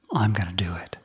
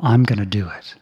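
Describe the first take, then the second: First: A sly whispered echo of the same line; whispered repeat. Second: Said in the usual way. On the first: Acted. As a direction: say it again under your breath, unvoiced. Yaka insists on striking the monk.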